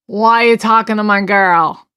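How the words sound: It is said aggressively, like a sloppy drunk.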